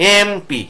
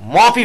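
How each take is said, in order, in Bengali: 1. এটি 'e' স্বরধ্বনি দিয়ে শুরু হয়। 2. এটি সরাসরি 'm' ধ্বনি দিয়ে শুরু হয়। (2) "মপি বলি না"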